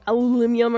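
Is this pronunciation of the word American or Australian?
Australian. The word is said with Australian-style pronunciation. "or however they say it"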